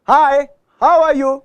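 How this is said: The voice is pitched high. "ये high frequency है, ऊपर जा रही है फ्रीक्वेंसी"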